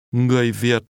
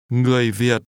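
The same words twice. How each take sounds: The two takes are said the same way.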